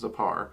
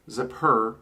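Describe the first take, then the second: First: Zapar with an open -ar ending; common pronunciation. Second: Zapur with an -ur ending; alternative pronunciation. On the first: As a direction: say Zapar, last syllable rhyming with far. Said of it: "I hear it most often pronounced". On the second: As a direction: say Zapur, last syllable rhyming with fur. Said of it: "it can also be, uh, pronounced". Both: Shown as a demonstration.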